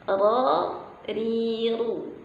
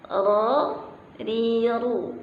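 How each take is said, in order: First: The syllables are made with the tongue, lips unrounded. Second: The same.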